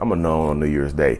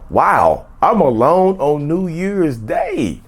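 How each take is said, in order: First: It is said in a sad, low tone. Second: It is said in an excited, upbeat tone.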